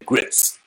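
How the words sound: The word is said as one syllable. This is how Northern speakers say it. "people in the North say grits"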